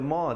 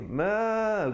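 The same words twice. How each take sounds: First: The vowel is not held for two counts. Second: The vowel is held for two counts. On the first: The speaker calls it wrong. "jangan baca ma" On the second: The speaker calls it right. "tapi ma begitu, dua harakat"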